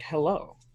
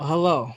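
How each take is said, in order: First: It is an unsure question, rising at the end. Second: It is a plain greeting, falling at the end.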